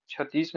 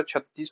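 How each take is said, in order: First: छत्तीस said 'chhatees'; single 't'. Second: Said in the usual way. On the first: Shown as a demonstration. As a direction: say छत्तीस without doubling the t. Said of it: "नहीं होता". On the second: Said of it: "होता है".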